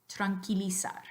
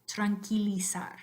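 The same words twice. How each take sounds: No difference in how they are said.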